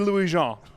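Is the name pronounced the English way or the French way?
French. The name is pronounced with French sounds. This is how the name ought to be said. "my name is French, and it should be"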